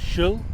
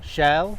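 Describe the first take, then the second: First: The vowel is reduced to a schwa. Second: The vowel is full. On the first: "the vowel sound is being turned into an uh" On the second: "shall becomes"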